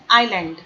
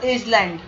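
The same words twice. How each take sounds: First: No s sound is heard before the l. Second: An s sound is heard before the l. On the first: The speaker calls it right. "This is actually island" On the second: The speaker calls it wrong. "Don't pronounce this Iceland or Island"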